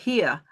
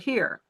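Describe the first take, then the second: First: It is said with a Maine accent. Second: It is said with a Texas accent. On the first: "in Maine, they say here" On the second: "in Texas, they say here"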